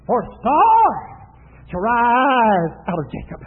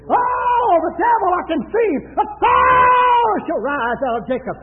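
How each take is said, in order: First: Swelling prophecy. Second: High, loud preaching outburst; shouted prophecy. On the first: Preacher quotes Balaam's prophecy of the star, swelling proclamation. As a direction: let the prophecy rise and fall slowly. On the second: Preacher proclaims the star prophecy against the devil, shouted outburst. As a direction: cry it out, stretching the key word. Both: Retold or imitated.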